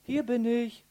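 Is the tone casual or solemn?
casual. It is said in a casual, offhand tone. The speaker is simply announcing where he is. The speaker calls it wrong. "Also nicht nach der Art und Weise, hallo"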